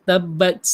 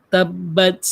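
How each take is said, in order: No difference in how they are said.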